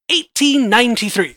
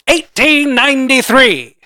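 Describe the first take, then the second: First: It is said in an ordinary speaking voice. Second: It is said in a special put-on voice. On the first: The speaker calls it wrong. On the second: The speaker calls it right. "let me do it in the real voice"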